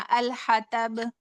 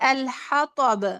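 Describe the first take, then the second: First: The t sound is light and plain. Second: The t sound is heavy and emphatic. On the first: "तो यहाँ तो को ता पढ़ लेना" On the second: "यहाँ हा के बाद तो है"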